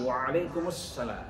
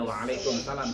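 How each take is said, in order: First: The greeting links a doubled s sound before salam. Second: The greeting is clipped, without the linked assimilated sound. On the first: The speaker calls it right. "tapi waalaikumsalam. Jadi dihidupkan alif alif lam syamsiahnya" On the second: The speaker calls it wrong. "Tidak waalaikumsalam"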